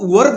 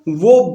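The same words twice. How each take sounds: First: The r sound is clearly pronounced. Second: The r sound is silent. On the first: The speaker calls it wrong. "इसको वर्ब नहीं बोलना है" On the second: The speaker calls it right. "ये आर जो है ये silent है"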